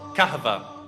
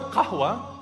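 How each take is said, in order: First: The consonant after the h is a v sound. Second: The consonant after the h is a w sound. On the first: This is how Turkish speakers said it. "the waw turns into a v" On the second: This is the original Arabic word. "So the word qahwa"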